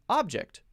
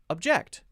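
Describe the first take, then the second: First: The stress is on the first syllable. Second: The stress is on the second syllable. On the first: It is used as a noun. "two-syllable noun, stress the first syllable" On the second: It is used as a verb. "two-syllable verb, stress the second syllable"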